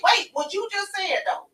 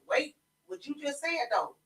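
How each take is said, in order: First: First wait higher and louder, stressing wait. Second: Said in the usual way. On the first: Real, not acted. Host stopping the men, emphatic wait. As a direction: call out wait, what you just said though. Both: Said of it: "repeats wait for emphasis".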